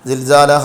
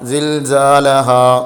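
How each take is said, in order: First: The final vowel is cut short before stopping. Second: The final vowel is held long before stopping. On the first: The speaker calls it wrong. "സിൽസാലഹ എന്ന് പറയാൻ പാടില്ല" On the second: The speaker calls it right. "അസ്ലിയായ മദ്ദിൽ നീട്ടിക്കൊണ്ട് നിർത്തണം"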